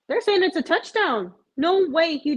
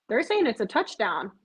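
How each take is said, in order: First: Higher and louder, "They're" jumps up; suddenly excited as it sinks in; real excitement at a Hail Mary; excited disbelief. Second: Said in the usual way. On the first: Real, not acted. Realizes it's a touchdown.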